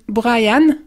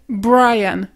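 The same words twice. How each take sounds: First: The R is a French throat sound. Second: The R is an English tongue sound. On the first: The speaker calls it wrong. "ça va être pas être Brian, comme souvent les personnes vont dire" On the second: The speaker calls it right. "ça va être Brian"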